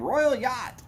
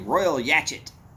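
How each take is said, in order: First: Yacht is said as one syllable. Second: Yacht is said as two syllables, rhyming with hatchet. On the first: The speaker calls it right. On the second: The speaker calls it wrong.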